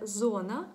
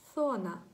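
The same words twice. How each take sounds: First: The word begins with a buzzing z sound. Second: The word begins with a soft interdental th sound. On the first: This is how it sounds in Ukrainian. "у нас українській це «зона»" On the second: This is how it sounds in Spanish. "а в них це «зона», «зона», м'яко"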